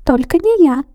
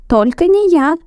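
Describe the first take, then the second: First: High squeaky shout; mouse shouting. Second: High squeaky shout; first mouse refusing loudly. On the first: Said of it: "закричал один". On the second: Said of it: "закричал другой". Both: A narrator's reading. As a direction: cry out not me.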